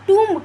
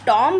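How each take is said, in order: First: The vowel sounds like 'oo', as in room. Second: The vowel sounds like 'oh', as in comb. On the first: The speaker calls it right. "टूम्ब कहा जाएगा उसको" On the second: The speaker calls it wrong. "आप टॉम्ब नहीं कह देंगे"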